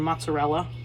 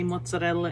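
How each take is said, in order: First: The R is plain and not trilled. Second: The R is rolled with a trill. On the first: The speaker calls it wrong. "instead of mozzarella" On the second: The speaker calls it right. "Learn how to roll your R's. It just sounds so much better when you say mozzarella"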